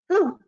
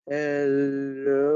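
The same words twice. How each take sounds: First: It is said fast. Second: It is said slowly.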